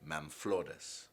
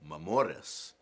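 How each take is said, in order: First: The f sound of the cluster is kept. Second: The f sound of the cluster is dropped. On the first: The speaker calls it right. "but instead mamflores" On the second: The speaker calls it wrong. "Flores does not become mamores"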